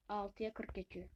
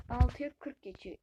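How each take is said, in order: First: Muttered to himself, softer; quiet, stunned murmur at the clock; quiet disbelief. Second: Louder, ALTIYA hit hard in disbelief; "Altıya" punched loud in real shock; shocked exclamation. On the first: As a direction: read the time low, half to yourself. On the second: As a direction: blurt the time out, startled. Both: Real, not acted. Realizes how late it got.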